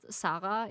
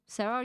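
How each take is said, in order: First: The name is pronounced the German way. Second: The name is pronounced the English way. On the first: "is basically how you learn this in German" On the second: "you call it in English"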